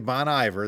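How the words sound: The name is said in a hillbilly way. The speaker calls it wrong. "That's the hillbilly way to do it"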